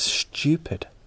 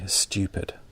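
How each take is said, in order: First: It is said in a casual regional way. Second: It is said in a formal standard way. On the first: The speaker is among friends. "if I'm speaking more casually with my friends" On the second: The speaker is in a formal situation. "when I'm speaking more formally"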